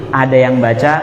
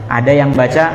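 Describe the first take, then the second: The two takes are said the same way.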